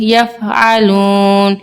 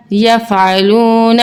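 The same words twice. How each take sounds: First: یفعلون slowed, vowel before ن held one alif; stretched stop. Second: Said in the usual way. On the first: Shown as a demonstration. Teacher to children, slow madd stop on یفعلون. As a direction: draw out the و in یفعلون, then stop on ن. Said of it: "ایک الف کے برابر کھنچے گا". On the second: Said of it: "نون زبر نا".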